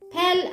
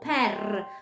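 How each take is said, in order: First: The r is said without a rolled trill. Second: The r is said with a rolled trill. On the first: The speaker calls it wrong. "per 아니고" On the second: The speaker calls it right. "르르르 이렇게 혀는 드르르 이렇게 해야 되잖아요"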